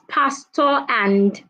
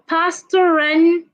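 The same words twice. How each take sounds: First: The two words are said separately without linking. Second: The r sound runs straight into the next word. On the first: The speaker calls it wrong. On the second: The speaker calls it right.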